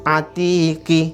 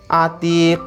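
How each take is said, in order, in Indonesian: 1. Kata ini berakhir dengan bunyi vokal tambahan. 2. Kata ini berakhir dengan konsonan yang dipantulkan. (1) "Kalau tidak kol-kola dibaca ki, atiqi" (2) "Harus dibaca atiq"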